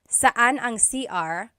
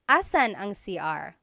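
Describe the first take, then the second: First: The first word drops its opening na syllable. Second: The first word drops its opening n sound. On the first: "they might even just say" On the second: "a short way to say it"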